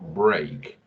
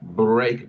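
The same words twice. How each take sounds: First: The r is a soft, smooth English r. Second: The r is a dragged, rolled Spanish r. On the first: The speaker calls it right. "la R siempre se pronuncia como una, un sonido suave y ligado" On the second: The speaker calls it wrong. "haciendo la típica R nuestra que es una R arrastrada"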